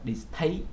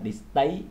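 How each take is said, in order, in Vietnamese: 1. Âm t được phát ra với một luồng hơi bật mạnh. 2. Âm t được phát ra không có luồng hơi bật ra. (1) "bạn phải đọc là distaste, distaste nó giống với âm thờ trong tiếng Việt" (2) "bạn không đọc là distaste, tại vì nếu như vậy thì nó gần giống với âm tờ trong tiếng Việt"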